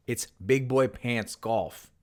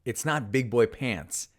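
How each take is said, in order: First: Put-on slow, even beats on Big Boy Pants Golf; Big Boy Pants Golf spaced out slow and deliberate; Bond-style cadence. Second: Said in the usual way. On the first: Shown as a demonstration. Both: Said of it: "same cadence".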